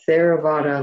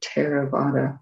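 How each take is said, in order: First: It begins with a th sound as in therapy. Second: It begins with a T followed by a breath. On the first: The speaker calls it wrong. "we don't say Theravada, like the word therapy" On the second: The speaker calls it right. "So a T with an aspiration after it"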